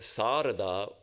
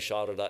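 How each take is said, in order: First: The first sound is a plain s. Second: The first sound is sh. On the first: This is the form that is not in the Sanskrit dictionary. "with the pure sibilant S" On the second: This is the Bengali pronunciation of the name. "pronounced in Bengali Sharada"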